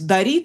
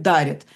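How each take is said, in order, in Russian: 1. Ударение на втором слоге. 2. Ударение на первом слоге. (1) "раньше говорили" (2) "сейчас мы говорим"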